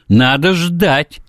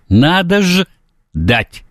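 First: The last word is said whole, without a break. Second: The last word is split with a break.

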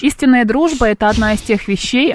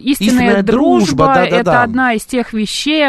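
First: It sounds like text being read aloud. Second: It sounds like words being recalled from memory. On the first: The words come from a page. The speaker calls it wrong. "не как будто ты читала" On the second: The words come from memory. The speaker calls it right. "как будто ты из головы это взяла"

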